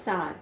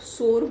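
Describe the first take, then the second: First: The vowel glides like 'ow', like power. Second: The vowel is a plain 'or', like sore. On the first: The speaker calls it right. "it should be sour" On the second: The speaker calls it wrong. "इसको भी कई लोग सोर बोल देते हैं, which is the wrong pronunciation"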